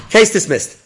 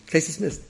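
First: Loud, high mock proclamation; judge's ruling. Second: Said in the usual way. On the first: Judge ruling for a man without a lawyer, mock booming. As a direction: boom it out like a judge throwing out a case.

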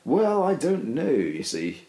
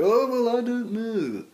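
First: Slow, lifted posh evasion; drawn-out plummy dodge of the question. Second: Exaggerated posh mimicry, high. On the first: Real, not acted. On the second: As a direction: ham up a plummy dodge. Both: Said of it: "in a more posh voice".

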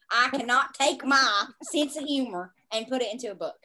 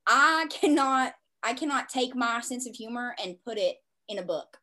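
First: Said in the usual way. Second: A Southern twang slips in; Southern accent. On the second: Real, not acted. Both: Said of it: "I just sounded so Southern right there".

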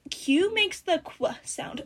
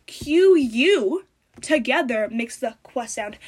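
First: Slow, drawn-out mocking tone; mocking quote. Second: "U" hit loud and slow, correcting; stress on U. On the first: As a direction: mimic people saying it smugly. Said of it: "People are like". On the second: Shown as a demonstration. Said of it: "No, it doesn't".

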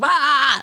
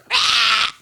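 First: A short, higher mock screamo yelp; hammed-up emo scream, higher. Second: Imitating a real scream, not at full force; actual scream imitation. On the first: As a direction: imitate a screamo scream, not full force. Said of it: "like, the screamo scream". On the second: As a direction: show how a real scream would go. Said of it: "how would that go if you're actually screaming?".

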